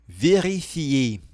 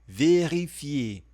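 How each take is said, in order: The two takes are said the same way.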